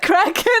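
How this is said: The word is pronounced with Dutch sounds. "I feel like I'm doing the Dutch pronunciation of kraken"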